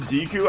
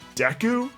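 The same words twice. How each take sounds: First: The first vowel is a long 'ee' sound. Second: The first vowel is short, as in 'deck'. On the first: This is the common way people say it. "a lot of people pronounce it Deku" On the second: This follows the original Japanese way. "the Japanese way of pronunciation is actually Deku"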